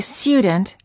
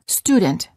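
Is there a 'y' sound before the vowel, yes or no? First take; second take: yes; no. First: The vowel has a 'y' sound before the 'oo'. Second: The vowel is a plain 'oo' with no 'y' sound before it. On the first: The speaker calls it wrong. "don't say student" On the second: The speaker calls it right. "say student"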